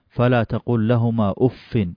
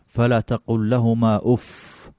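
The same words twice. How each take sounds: The two takes are said the same way.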